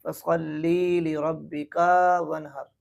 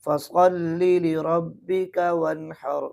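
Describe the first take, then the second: First: ली and रब्बिका dragged out too long; wrong demo, vowels overdrawn; wrong stretched reading. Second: ली and रब्बिका kept short; correct reading. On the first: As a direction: overstretch ली and रब्बिका. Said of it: "यूँ नहीं पढ़ना". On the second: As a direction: keep ली short in slow recitation. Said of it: "इस ली को खींचना नहीं है". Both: Shown as a demonstration.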